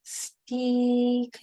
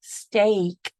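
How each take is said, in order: First: "Steak" said as "steek" with a long ee vowel; "Steak" with an ee sound, deliberately wrong. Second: "steak" said as "stake" with a long A, a bit louder; "steak" correctly as "stake", firm and sure; corrected vowel. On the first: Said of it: "nope, stiak". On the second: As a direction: fix "steak" so it rhymes with "make". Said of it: "That makes more sense". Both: Shown as a demonstration.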